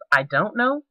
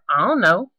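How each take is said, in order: First: It is said in a standard pronunciation. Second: It is said in a vernacular dialect pronunciation. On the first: "instead of I don't know" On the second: "or I don't know instead of"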